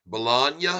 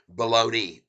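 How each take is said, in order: First: Bologna said buh-LAHG-na, sounding the g. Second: Bologna said as buh-LOH-nee, like the lunch meat; Bologna said as baloney. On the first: Streamer to viewer David, spelling out the Italian Bologna. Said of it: "B O L O G N A". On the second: Streamer to viewer David, testing the baloney reading of Bologna. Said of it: "as it is pronounced on the, uh, Oscar Mayer packages". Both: Shown as a demonstration.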